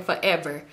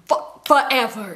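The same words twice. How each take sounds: First: Said in the usual way. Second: "forever" stretched out slowly; emphatic repeat. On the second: Retold or imitated. Storyteller complaining about sister's nail wait, "forever" drawn out.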